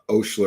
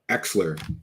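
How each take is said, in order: First: It starts with an 'o' and has 'sh'. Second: It starts with an 'e' and has 'ks'. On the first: The speaker calls it wrong. "not Oshler" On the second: The speaker calls it right. "that's how you say it"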